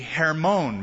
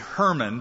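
First: The name is said with a Hebrew pronunciation. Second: The name is said with an English pronunciation. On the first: "So the Hebrew pronunciation would be Hermon" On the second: "We say Hermon, but that reminds me of Herman Munster"

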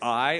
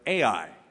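First: It is said as one syllable, like 'eye'. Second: It is said as two separate syllables. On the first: "Some pronounce it I" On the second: "or AI"

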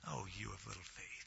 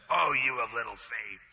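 First: It is said in a warm, affectionate tone. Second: It is said in an angry, scolding tone. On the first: The speaker feels love for the listener. The speaker calls it right. "I personally think it was endearing" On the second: The speaker is annoyed with the listener. The speaker calls it wrong. "A lot of people read this as if Jesus was mad at him"

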